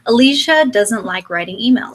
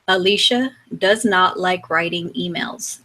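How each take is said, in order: First: 'Does not' is shortened to one word, 'doesn't'. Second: 'Does not' is said as two full words. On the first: It sounds more relatable. The speaker calls it right. "changing those words and turning them into contractions" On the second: It sounds robotic and impersonal. The speaker calls it wrong. "I'm going to sound like a robot real fast"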